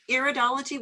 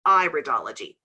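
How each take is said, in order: First: Iridology starting with EAR, like ears; wrong pronunciation. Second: Iridology starting with EYE, as in iris; correct pronunciation. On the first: Teacher teasing students about the mistake, wrong pronunciation. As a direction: quickly mispronounce iridology with 'ear' at the start. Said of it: "we'd be studying ears". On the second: Teacher linking the word to the iris, correct pronunciation. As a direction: say iridology with a clear 'eye' first, pitch falling. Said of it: "It's the iris of the eye". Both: Shown as a demonstration.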